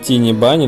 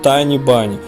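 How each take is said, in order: First: The first vowel of 'Tiny' sounds like 'ee'. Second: The first vowel of 'Tiny' sounds like 'eye'. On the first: The speaker calls it wrong. "я привык говорить Тини Бани" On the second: The speaker calls it right. "а правильный будет Тайни Бани"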